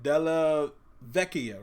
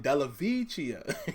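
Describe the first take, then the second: First: The name is said with its original pronunciation. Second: The name is said with an anglicized pronunciation. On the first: This is how the name's owner says it. "you heard what he said" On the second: This is how it looks to an American reader. "when I read it with my American eyes, I'm thinking"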